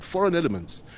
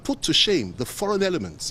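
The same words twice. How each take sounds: First: "foreign" lifted and pressed, falling after; stress on foreign. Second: Said in the usual way. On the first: Shown as a demonstration. Politician stresses "foreign" to reporters, emphatic. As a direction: lean hard on "foreign", then let it drop. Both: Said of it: "and I emphasize that word".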